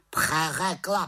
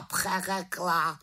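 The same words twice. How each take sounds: First: High, loud croaked word; croaking raven. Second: High, slow, drawn-out croaked echo. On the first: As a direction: snap the word back like a raven. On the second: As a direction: stretch the word out mockingly. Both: Acted. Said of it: "krákal havran".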